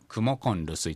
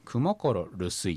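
First: The verb ends in an n sound before rusuy. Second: The verb ends in an r sound before rusuy. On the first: This is how it is normally pronounced. "クモコンルスイと普通、発音されます" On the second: This is the underlying base form. "クモコロルスイっていうのが元ですけど"

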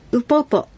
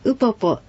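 First: The first syllable is low in pitch. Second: The first syllable is high in pitch. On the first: The speaker calls it right. "ウポポはウを低く、ウポポと発音してください。" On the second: The speaker calls it wrong. "ウポポではありません。"

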